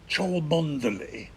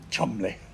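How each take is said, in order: First: It is said as written, syllable by syllable. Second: It is said in a shortened form.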